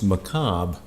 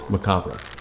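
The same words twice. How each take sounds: First: The final R sound is left out. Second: The final R sound is pronounced. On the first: The speaker calls it wrong. "where you don't pronounce the R" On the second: The speaker calls it right. "pronounced just like it's spelled"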